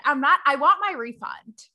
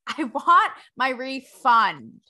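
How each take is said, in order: First: Said in the usual way. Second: Drawn out through a laugh; laughing, slow. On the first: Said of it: "repeated joke line". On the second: Real, not acted. Host joking about the No Fun Club, slow and laughing. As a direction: savour the joke, laughing.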